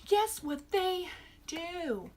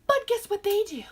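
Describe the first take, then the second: First: Slow, drawn-out repeat of the hook; slow teaser. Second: Loud teaser. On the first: Reviewer repeating the tease to her viewers, slowly drawn out. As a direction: drag it out slowly, stress on guess. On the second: Reviewer teasing her viewers about the movie's fake stunts, loud and high. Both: Real, not acted.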